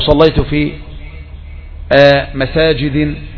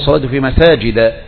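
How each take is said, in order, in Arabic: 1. تنتهي الكلمة الأخيرة بكسرة ثم نون. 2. تنتهي الكلمة الأخيرة بفتحة بس. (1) "وقعت في خطأين. الخطأ الأول أنك نونت، الخطأ الثاني أنك جررت بالكسر" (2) "لكن أقول"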